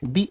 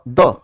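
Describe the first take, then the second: First: The word is said with a long 'ee' vowel. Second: The word is said with a short 'uh' vowel. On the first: The next word starts with a vowel sound. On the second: The next word starts with a consonant sound.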